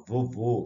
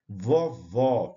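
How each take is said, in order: First: "vovô" with a closed, rounded final o. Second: "Vovó" with an open final o. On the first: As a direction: close the stressed vowel of "vovô". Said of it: "som fechado". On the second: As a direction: open the stressed vowel of "Vovó". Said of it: "som aberto". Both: Shown as a demonstration.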